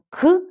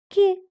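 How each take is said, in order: First: The consonant is hard, not palatalized. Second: The consonant is soft and palatalized. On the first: "Ми кажемо к" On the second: "Він мої звуки робить м'ягкесенькими"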